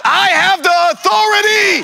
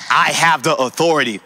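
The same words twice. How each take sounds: First: High, full-voiced shout; shouted declaration. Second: Said in the usual way. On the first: Shown as a demonstration. Preacher leads the congregation to claim authority, shouting. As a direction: shout it out for the crowd to follow. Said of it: "Someone shout". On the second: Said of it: "that said".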